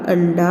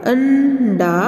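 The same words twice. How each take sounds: First: Said in the usual way. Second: अंडा with a long hummed "an", then "da"; drawn-out nasal अंडा in two parts; syllable-split nasal demo. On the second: Shown as a demonstration. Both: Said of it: "हम नासिका द्वारा इसका उच्चारण".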